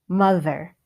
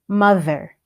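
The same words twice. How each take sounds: The two takes are said the same way.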